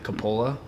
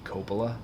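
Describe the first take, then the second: First: Coppola as "kuh-POH-luh", stress in the middle; family pronunciation. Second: Coppola as "KOH-puh-luh", stress up front; Italian pronunciation. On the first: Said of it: "my family pronounces it". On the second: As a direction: stress the first syllable of Coppola, with a long O. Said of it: "the Italian pronunciation would be". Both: Shown as a demonstration.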